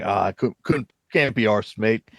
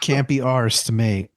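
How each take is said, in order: First: Halting, badly faked British accent; terrible British accent. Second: Mock British accent, echoed back. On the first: People in early streaming days can't be bothered, bad British accent. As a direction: fumble through a bad British impression. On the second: Co-host echoes the failed line back, mock British accent. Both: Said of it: "That was a terrible British accent".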